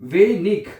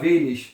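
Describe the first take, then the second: First: The word ends with a hard g sound. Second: The word ends with a soft sh sound. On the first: "ईग और इश" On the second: "ईग और इश"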